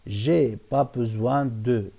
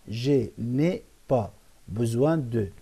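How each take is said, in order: First: It is said quickly with the 'ne' dropped. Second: It is said in full with the 'ne' kept. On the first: This is the fast everyday spoken form. "بيقولوها بسرعة" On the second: This is the original full form. "الأصل أقول"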